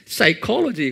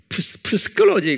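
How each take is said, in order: First: The initial p sound is silent. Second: The initial p sound is pronounced. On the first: The speaker calls it right. "psychology 그러죠" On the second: The speaker calls it wrong. "psychology 그러지 않죠?"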